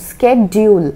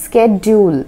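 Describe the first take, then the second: The two takes are said the same way.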